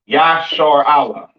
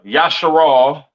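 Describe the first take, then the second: First: The name ends in a separate 'Allah' sound. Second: The name ends in a short 'al' sound. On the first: The speaker calls it right. "This is how you pronounce Israel in the ancient Hebrew" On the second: The speaker calls it wrong. "not uh uh Yasharal"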